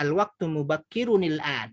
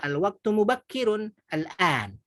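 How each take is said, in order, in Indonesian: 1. Huruf n terakhir tersambung dengan kata berikutnya dengan bunyi i. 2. Huruf n terakhir tetap terpisah dari kata berikutnya. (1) "boleh ibu bacanya al-waktu mubakkirun il-an" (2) "Atau boleh juga"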